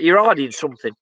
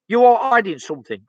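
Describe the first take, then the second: First: Said in the usual way. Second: ARE hit a bit higher and firmer; insist: You ARE hiding something; stress on ARE. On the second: Real, not acted. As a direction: lean on the word are.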